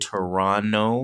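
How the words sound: The second T is left silent. This is how locals say it. The speaker calls it right. "we say Toronto. that T is silent"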